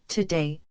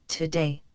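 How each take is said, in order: Both takes have the same delivery.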